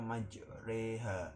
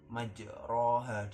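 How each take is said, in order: First: The vowel after r is an e. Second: The vowel after r is an open a. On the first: This is the exceptional reading actually used. "dibaca majreha" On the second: This is the reading the general rule expects. "bacaan yang harusnya majroha"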